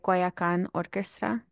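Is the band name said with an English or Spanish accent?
English. The name is said with an American English accent. The speaker calls it wrong.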